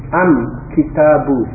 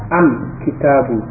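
Both takes have the same delivery.

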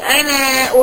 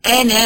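First: The final vowel is drawn out long. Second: The final vowel is short, the alif dropped. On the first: The speaker calls it wrong. "مش هقول انا احيي" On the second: The speaker calls it right. "ان الالف دي تسقط ايه في القراءة بتاعتي"

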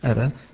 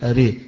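First: The final vowel leans slightly toward 'e'. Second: The final vowel leans strongly toward 'e'. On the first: "إذا وقف عليها ورش يقول أرى" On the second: "غيره إذا وقفوا عليها زي حمزة والكسائي وقال يقول أري"

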